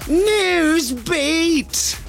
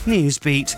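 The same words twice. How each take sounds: First: It is shouted out to the extreme. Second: It is shouted out at normal jingle strength.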